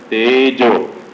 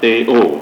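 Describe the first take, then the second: First: A clear 'j' sound is heard in the middle. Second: The middle consonant is dropped, with no 'j' sound. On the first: The speaker calls it right. "Tejo is fire element" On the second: The speaker calls it wrong. "not Teo"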